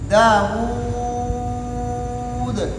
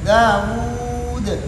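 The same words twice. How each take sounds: First: The final long vowel is held the longest. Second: The final long vowel is held a medium time. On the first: "तूल" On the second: "तवसुत"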